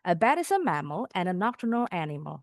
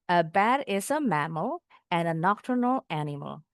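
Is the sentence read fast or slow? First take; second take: fast; slow. First: The sentence is read quickly. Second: The sentence is read slowly. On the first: "baru dipercepat" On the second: "Pelan-pelan dulu bacanya"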